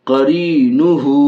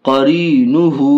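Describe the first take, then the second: The two takes are said the same way.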